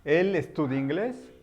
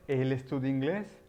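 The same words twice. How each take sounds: First: Said in the usual way. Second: "¿Él estudia inglés?" with a rising question tune on inglés; question intonation. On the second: Shown as a demonstration. Teacher contrasting the statement with a question, rising tune. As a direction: lift the end of "inglés" into a question.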